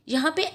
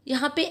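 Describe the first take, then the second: The two takes are said the same way.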